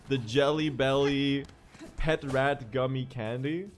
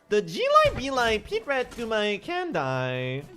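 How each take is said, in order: First: It is said in the speaker's normal voice. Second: It is said in an odd, put-on voice.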